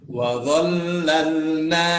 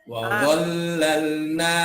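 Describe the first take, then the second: No difference in how they are said.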